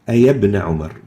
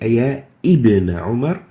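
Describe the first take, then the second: First: The middle word links without a glottal stop. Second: A glottal stop begins the middle word. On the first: The speaker calls it right. "We delete the alif al-wasl and hamzatul wasl" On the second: The speaker calls it wrong. "we don't say"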